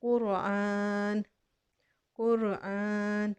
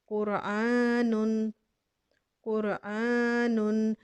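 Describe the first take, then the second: First: कुरआन very slow, ending on a still नून; pausal form. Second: कुरआनुन slowly, with the full "un" at the end; joined form. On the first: Teacher contrasts the stop with the joined form, slowly. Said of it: "नून को साकिन कर देंगे". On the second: Teacher shows the joined form slowly before the stop. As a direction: draw out कुरआनुन and voice the nunation. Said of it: "नून के ऊपर दो पेश है". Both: Shown as a demonstration.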